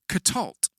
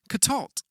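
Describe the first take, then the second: First: The word ends on the consonant cluster. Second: The word ends on the consonant cluster.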